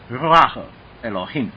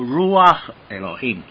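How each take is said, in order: First: The first R is trilled in the throat. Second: The first R is a plain, untrilled R. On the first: "它其实是一个小舌音啊…这个是正标准读法了" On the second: "但是你没办法发小舌音啊，其实没有关系"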